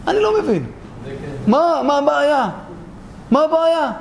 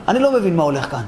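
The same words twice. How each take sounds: First: High, exasperated repetition; baffled protest. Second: Said in the usual way. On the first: Acted. Speaker not understanding what the problem is, exasperated. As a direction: push the bafflement up high in pitch. Same question repeated, escalating in bafflement.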